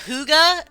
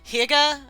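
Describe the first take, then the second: First: It is said the way others pronounce it. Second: It is said the way it is written. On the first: This is how people from that place say it. The speaker calls it right. "I know it's like Huga, some people say" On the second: This is a reading from the written word. The speaker calls it wrong. "was how I originally like read it. And I know that's probably wrong"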